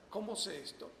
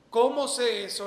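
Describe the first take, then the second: First: Said in the usual way. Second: Loud, raised rhetorical question; emphatic question. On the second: Acted. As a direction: throw the question out to the room. Rhetorical question repeated quietly after. (pregunta fuerte y enfática)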